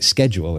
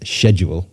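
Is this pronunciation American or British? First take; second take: American; British. First: It is said with an American pronunciation. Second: It is said with a British pronunciation. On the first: "schedule is what we used to say was the American pronunciation" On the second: "the word which I say as schedule"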